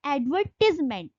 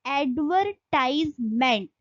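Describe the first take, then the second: First: एडवर्टीजमेंट with short "tiz", ad-VER-tis-ment; British pronunciation. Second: एडवर्टाइजमेंट with "tize" like tie, ad-ver-TIZE-ment; American pronunciation. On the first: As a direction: say एडवर्टीजमेंट with a short "i" in the third syllable, no "ai". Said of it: "उसको बोला जाएगा एडवर्टीजमेंट". (एडवर्टीजमेंट, British उच्चारण, "टीज" छोटा) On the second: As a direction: say एडवर्टाइजमेंट with a long "ai" in the third syllable. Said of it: "इसको बोला जाता है एडवर्टाइजमेंट". (एडवर्टाइजमेंट में "टाइज" साफ़ बोलें) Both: Shown as a demonstration.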